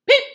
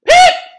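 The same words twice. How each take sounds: First: The peep is said quietly. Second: The peep is said loudly.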